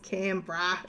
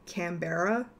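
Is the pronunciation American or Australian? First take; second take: Australian; American. First: It is said with an Australian pronunciation. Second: It is said with an American pronunciation. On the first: The speaker calls it right. "no, it's Canberra" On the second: The speaker calls it wrong. "Americans always pronounce it Canberra"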